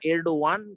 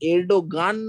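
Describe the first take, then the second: First: The middle consonant is a soft y glide. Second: The middle consonant is a hard g sound. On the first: This is how native speakers say it. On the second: This follows the English spelling.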